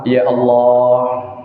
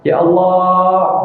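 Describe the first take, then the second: First: It is said at a calm, ordinary pitch. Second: It is said with a higher, raised voice.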